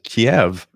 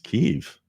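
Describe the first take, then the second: First: The name is said the common North American way. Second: The name is said the local Ukrainian way. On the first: This is how listeners abroad usually say it. The speaker calls it wrong. "I always said Kiev" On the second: This is how people who live there say it. The speaker calls it right. "but it's Kiev"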